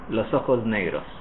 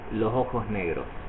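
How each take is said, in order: First: The s before negros buzzes like a z. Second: The s before ojos and negros sound like h. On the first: "the S before the N of negros will be voiced... like an English Z" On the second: "the other S be, before the O of ojos will also look like an H"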